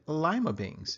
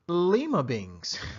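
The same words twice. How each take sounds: First: Lima does not sound like Peru's capital. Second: Lima sounds like Peru's capital city. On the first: This is how it is said in South Florida. "I was raised pronouncing it lima beans" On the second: This matches the name of Peru's capital. "the capital of Peru happens to be Lima ... So maybe you want to pronounce it Lima beans"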